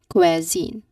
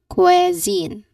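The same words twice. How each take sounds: First: The long E sound is in the first syllable. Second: The same.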